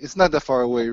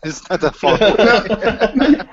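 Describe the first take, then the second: First: Said in the usual way. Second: Slow and higher through laughter; laughing. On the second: Shown as a demonstration. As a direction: stretch it out while laughing.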